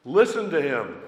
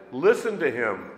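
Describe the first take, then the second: First: "Listen" said with a slight annoyed edge; a hint of an exasperated father. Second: Emphatic command; emphasis added. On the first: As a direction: let a little irritation show on "Listen to him". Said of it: "I wondered if there was an edge on that voice". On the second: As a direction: stress on "Listen", firm and measured. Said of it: "That means emphasis added". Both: Shown as a demonstration.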